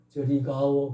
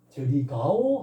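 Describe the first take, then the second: First: It is intoned as a plain statement. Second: It is intoned as a question. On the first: The speaker states that they are going over there. "그러면 서술문이다" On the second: The speaker asks whether someone is going over there. "하면 의문문이고"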